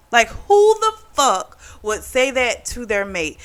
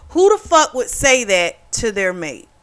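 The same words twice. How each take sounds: First: WHO THE FUCK drawn out and pitched high; higher, stretched-out stress on "who the fuck"; emphatic disbelief. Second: Indignant question in one run; outraged rhetorical question, evenly driven. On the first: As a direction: repeat it slower, leaning hard on "who the fuck". Repeats it slower, more emphatic. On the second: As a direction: ask it in raised, offended disbelief. Indignant rhetorical question, first take. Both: Real, not acted.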